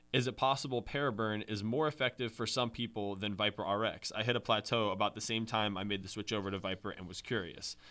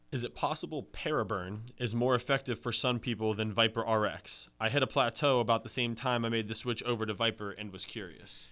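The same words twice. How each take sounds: The two takes are said the same way.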